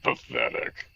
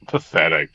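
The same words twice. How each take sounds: First: Lower, quieter muttered scorn; low contemptuous repeat. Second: Louder, spat-out contempt; scornful outburst. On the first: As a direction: drop it under your breath with disdain. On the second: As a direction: throw the word at them in disgust. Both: Acted. Accusing character sneers twice.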